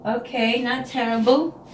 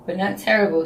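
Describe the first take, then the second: First: "not terrible" stretched slowly as she checks the result; drawn-out grudging verdict. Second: Said in the usual way. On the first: Real, not acted. Weighing up her hair in the mirror, slow and grudging. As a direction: let "terrible" hang with a doubtful upward lilt. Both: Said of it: "Not great, but not terrible".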